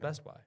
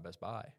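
First: The stress falls on the first word. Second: The stress falls on the second word. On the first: The speaker calls it right. "It's Best Buy" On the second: The speaker calls it wrong. "It's not Best Buy. I hate when people say that"

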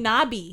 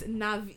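First: The middle consonant sounds like a B. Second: The middle consonant sounds like a V. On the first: The speaker calls it wrong. "He's saying Nabi" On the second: The speaker calls it right. "like with a V"

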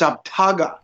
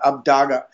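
First: The middle consonant is a t sound. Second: The middle consonant is a d sound. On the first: It means a journey of taking up land. The speaker calls it right. "it's actually a T sound as opposed to a D sound" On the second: It means a journey of discovery. The speaker calls it wrong. "the Thorn Ruin, which represents the D sound"

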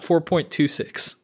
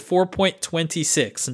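First: The part after the point is read digit by digit. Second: The part after the point is read as twenty-six. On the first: It is a small step past version four point two. The speaker calls it wrong. "It's not like 4.2, like basically 4.25" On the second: It is the twenty-sixth release. The speaker calls it right. "it's the 26th release of Unreal Engine 4"

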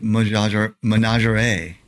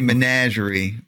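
First: The word is said in a French-like way. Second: The word is said in a plain English way. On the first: "it's probably menagerie, like some kind of French thing" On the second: "I say menagerie"

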